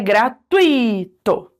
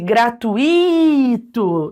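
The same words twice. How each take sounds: First: The stress falls on the diphthong 'tui'. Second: The stress falls on a separate 'i'. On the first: The speaker calls it right. "porque é gratuito" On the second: The speaker calls it wrong. "deixasse só o i como se ele fosse um hiato"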